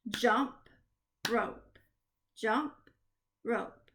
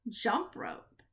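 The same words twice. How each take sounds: First: Jump, pause, rope; a long gap between Jump and rope; syllable by syllable. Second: Said in the usual way. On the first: Shown as a demonstration. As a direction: clap out "Jump rope" as two separate beats. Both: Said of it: "we are gonna clap the syllable".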